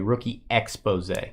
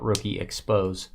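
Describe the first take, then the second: First: The word ends with an 'ay' sound. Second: The word ends with a 'z' sound. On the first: It names a card feature. The speaker calls it right. "It's important to read it the correct way" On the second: It sounds like revealing something bad. The speaker calls it wrong. "That could be uh, that could be negatively"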